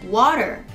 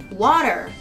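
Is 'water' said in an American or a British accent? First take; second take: American; American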